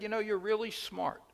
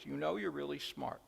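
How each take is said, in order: First: Said in the usual way. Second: Soft, deliberate repeat. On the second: Shown as a demonstration. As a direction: let the compliment land gently. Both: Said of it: "Five words".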